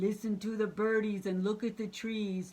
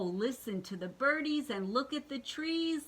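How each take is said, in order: First: It is said in a put-on monster voice. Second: It is said in the reader's normal voice.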